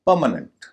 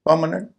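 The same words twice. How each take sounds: First: परमानेंट, front-stressed with weak tail; correct pronunciation. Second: परमानेंट as par-MAA-nent, every vowel full; common mispronunciation. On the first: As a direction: stress the first syllable of परमानेंट, the rest light. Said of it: "इन्हें परमानेंट होगा". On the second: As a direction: say परमानेंट with a full long 'maa' in the middle. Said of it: "लोग इसे परमानेंट कहते हैं". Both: Shown as a demonstration.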